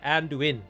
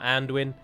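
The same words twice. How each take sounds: First: The ending 'du-in' is split into two syllables. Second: The ending 'duin' is merged into one syllable. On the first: The speaker calls it right. "it should be like that" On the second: The speaker calls it wrong. "morphed over time become a single sound, so people say like"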